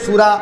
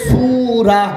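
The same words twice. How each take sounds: First: The vowel is kept short. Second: The vowel is drawn out long. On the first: It means wine. "টান না দিয়ে পড়লে" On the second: It means a chapter of the Quran. "টান দিয়ে পড়লে"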